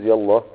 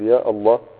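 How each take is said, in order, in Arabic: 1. «يا» تتصل بـ«الله» مباشرة دون توقف. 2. يُسمع توقف قبل كلمة «الله». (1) "وانك توصلها" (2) "انك تقطعها"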